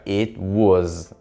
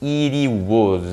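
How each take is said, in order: First: The t sound is left out. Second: The t sounds like a quick r. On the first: "Você não tem esse som do T" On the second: "Esse som de R que o T ganha só vai existir quando tem uma vogal"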